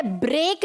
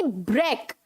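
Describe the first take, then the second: First: ब्रेक said "brake"; long "ay" in ब्रेक; wrong pronunciation. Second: ब्रेक as short "brek", lower; correct pronunciation. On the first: Teacher rejecting the error, ब्रेक mispronounced as "brake". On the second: Teacher correcting the students, ब्रेक as "brek". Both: Shown as a demonstration. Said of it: "ब्रेक नहीं".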